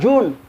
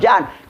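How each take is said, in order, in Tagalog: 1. Ang patinig ay mahabang tunog na 'oo'. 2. Ang patinig ay bukas na tunog na 'ah'. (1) "Di ba June dapat?" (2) "Bakit John basahin?"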